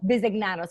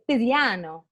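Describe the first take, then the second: First: The name is said plainly, every syllable kept. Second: The name is said in a playful Italian-style accent. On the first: The speaker calls it right. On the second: The speaker calls it wrong.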